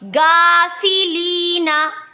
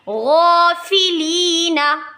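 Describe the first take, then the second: First: The first sound is thin like a plain g. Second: The first sound is heavy and full. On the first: The speaker calls it wrong. "गा तो बारीक भी हो गया" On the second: The speaker calls it right. "मोटा भी करना है"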